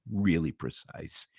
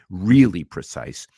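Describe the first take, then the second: First: Said in the usual way. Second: "really precise" repeated louder and slow, each word hit; emphatic repeat. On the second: Real, not acted. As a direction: punch "really precise" hard the second time.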